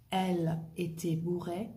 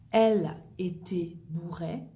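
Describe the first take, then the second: First: Said in the usual way. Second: "Elle était bourrée" in a breathy whisper; whispered model phrase. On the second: Shown as a demonstration. Teacher whispering slang example to the class.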